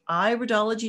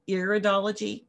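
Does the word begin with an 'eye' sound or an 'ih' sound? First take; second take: eye; ih. First: The first syllable sounds like 'eye', as in iris. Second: The first syllable sounds like 'ih', as in irritate. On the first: The speaker calls it right. "it's called iridology, ... because we're looking at the iris" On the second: The speaker calls it wrong. "not iridology"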